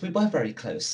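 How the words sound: It is said in a put-on character voice.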